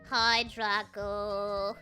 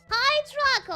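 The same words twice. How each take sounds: First: It is said in a gloomy, depressed tone. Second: It is said in a plain, neutral tone.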